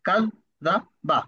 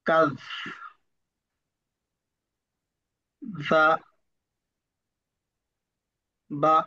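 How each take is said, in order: First: The syllables are read very quickly. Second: The syllables are read very slowly with effort. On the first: "পঞ্চমবার আরো দ্রুত" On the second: "অনেক সময় লাগলো আমার পড়তে"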